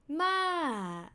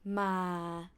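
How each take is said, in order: First: The syllable's pitch falls from high to low. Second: The syllable is said on a low pitch. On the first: It means grandma. "falling tone means grandma" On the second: It has no meaning. "low tone doesn't have any meaning"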